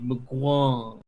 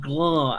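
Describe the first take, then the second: First: The word starts with an m before the g. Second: The word starts directly with a g sound. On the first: The speaker calls it right. "I said Mgwa" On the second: The speaker calls it wrong. "You said Gwa"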